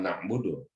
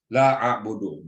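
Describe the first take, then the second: First: Na'budu with an n in front, the plural form; wrong na'budu. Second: La a'budu with a long laa and a'budu starting on a bare vowel, no n; correct La a'budu. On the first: Preacher marking the wrong plural reading, softer. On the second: Preacher teaching the singular form to the congregation. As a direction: lean on laa, then a'budu, louder. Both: Shown as a demonstration. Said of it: "bukan na'budu".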